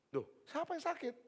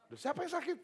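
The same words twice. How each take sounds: First: Much higher, exasperated question; a fed-up pastor asking, voice jumping up. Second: High, louder, fed-up question; irritated pastor. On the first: Pastor searching the house, fed up and higher. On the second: Pastor reaching the cow shed, high and exasperated. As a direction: let the pastor's patience snap upward. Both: Retold or imitated. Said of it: "dia agak marah".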